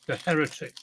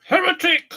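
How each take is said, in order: First: Said in the usual way. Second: High, loud cry of "Heretic!"; accusing shout. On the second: Pretend. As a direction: denounce him like a witch-hunter. Mock accusation at himself.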